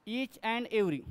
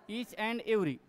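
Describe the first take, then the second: No difference in how they are said.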